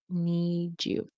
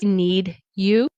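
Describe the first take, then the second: First: The d and y blend into a j sound. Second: The d and y are said separately. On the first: "very often you'll hear native speakers need you" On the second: "You could need you"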